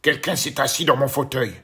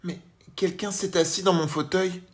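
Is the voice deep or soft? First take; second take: deep; soft. First: It is said in a big, deep voice. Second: It is said in a gentle, soft voice.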